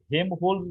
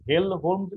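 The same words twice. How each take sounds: First: হেমহোল্টজ said with no L sound, Hem-holtz; হেমহোল্টজ, dropping the L after হে; Hem-holtz variant. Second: হেলমহোল্টজ said with a clear L, Helm-holtz; হেলমহোল্টজ, keeping the L before ম; Helm-holtz variant. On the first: Teacher giving one variant name of the resonator, হেমহোল্টজ without L. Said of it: "কেউ বলে আবার হেমহোল্টজ resonator বলে". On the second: Teacher giving the other variant name of the resonator, হেলমহোল্টজ with the L. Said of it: "কেউ হেলমহোল্টজ resonator বলে". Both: Shown as a demonstration.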